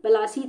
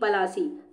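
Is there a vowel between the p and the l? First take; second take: yes; yes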